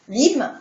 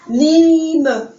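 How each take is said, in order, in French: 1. Le e final est muet, la syllabe reste unique. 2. Le e final se prononce, il ajoute une syllabe. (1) "là tout de suite, le mot prend un sens" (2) "quand on ne barrait pas les lettres finales, ben l'enfant va lire lime"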